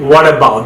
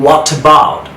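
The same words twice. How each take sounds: First: "what about" as "wuh-dabout"; American flapped T in "what about"; American soft D. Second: "What about" with a clear T joining the words; British crisp T in "What about". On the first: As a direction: join "what about" with a D sound. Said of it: "ডি উচ্চারণ". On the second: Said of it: "ব্রিটিশরা টি এর মতো sound করছে". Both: Shown as a demonstration.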